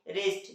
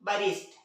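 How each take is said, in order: First: The word begins directly with an r sound. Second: The word begins with a sound before the r. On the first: The speaker calls it right. "लेकिन इन्हें पढ़ा क्या जाता है?" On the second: The speaker calls it wrong. "जबकि पढ़ना क्या चाहिए था इस हिसाब से?"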